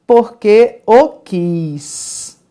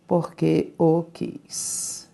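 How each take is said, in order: First: Porque o quis said slowly, stress on o; correct form demo. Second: Porque o quis repeated softly and slowly, stress on o; quiet slow repeat. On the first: Teacher slowly models the correct phrasing for Tereza. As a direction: stretch out porque o quis, leaning on o. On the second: Teacher softly repeats the correct phrase to herself. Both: Shown as a demonstration. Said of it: "o certo seria dizer".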